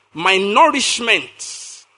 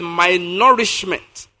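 First: Nourishment drawn out very slowly; stress on nourishment. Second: Slow, weighty "nourishment"; emphasize "nourishment" deliberately; stress on nourishment. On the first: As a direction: lean hard on "nourishment". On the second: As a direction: stretch out "nourishment" and let it fall. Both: Shown as a demonstration. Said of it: "I want to emphasize that word".

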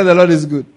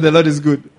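First: Louder still, each word firm; stronger proclamation. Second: Firm, louder proclamation; proclaiming. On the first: Preacher pressing the congregation to answer. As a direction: proclaim it harder the second time. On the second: Preacher repeating his declaration to the congregation. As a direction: declare it to the church. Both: Acted. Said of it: "I said".

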